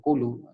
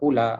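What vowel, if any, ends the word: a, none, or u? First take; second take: u; a. First: The word ends with a short u vowel. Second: The word ends with a short a vowel. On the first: "ataupun kulu" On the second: "Tak dibaca dengan kula"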